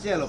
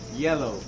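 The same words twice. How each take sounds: First: The word begins with a 'j' sound, like jello. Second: The word begins with a clear 'y' sound. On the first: The speaker calls it wrong. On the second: The speaker calls it right.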